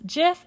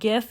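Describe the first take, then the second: First: It begins with a soft J sound. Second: It begins with a hard G sound. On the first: The speaker calls it right. "It is GIF ... like the peanut butter" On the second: The speaker calls it wrong. "and not GIF"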